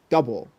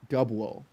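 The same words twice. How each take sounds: First: The first syllable is stressed and runs smoothly. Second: The two syllables sound evenly stressed and separated. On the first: The speaker calls it right. "emphasis on the first syllable, like double" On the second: The speaker calls it wrong. "and not double"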